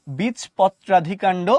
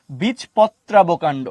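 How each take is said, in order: First: বীজপত্রাধিকাণ্ড spelt out slowly, every syllable clear. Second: বীজপত্রাবকাণ্ড spelt out slowly, every syllable clear. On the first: Teacher to students, slow careful term. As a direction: draw out বীজপত্রাধিকাণ্ড so the অধি stands out. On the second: Teacher contrasting the second term, slow careful. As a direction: draw out বীজপত্রাবকাণ্ড so the অব stands out. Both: Shown as a demonstration. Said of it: "দেখেন ডিফারেন্সটা বুঝেন".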